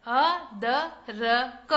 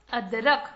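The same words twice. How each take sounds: First: अदरक drawn out very slowly, each syllable separate: अ-द-र-क. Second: Said in the usual way. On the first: Shown as a demonstration. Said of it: "कौन कौन से अक्षर से मिलकर बना है". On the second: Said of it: "क्या बना बच्चों?".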